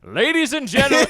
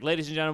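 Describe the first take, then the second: First: It is said in a booming announcer voice. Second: It is said in a plain, normal voice.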